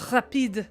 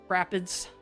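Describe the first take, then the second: First: It is said with a French-style ending. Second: It sounds like the English word 'rapids'. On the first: The speaker calls it wrong. "it's not rapide parish" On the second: The speaker calls it right. "it's rapids"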